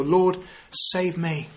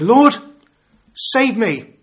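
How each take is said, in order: First: Each word spaced out slowly and softly; slow, deliberate. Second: A high, loud desperate "Lord, save me"; retold cry for help. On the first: Shown as a demonstration. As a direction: let the three words sink in. Quoting the three-word prayer. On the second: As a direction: call out like a sinking man. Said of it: "He cried out to the Lord".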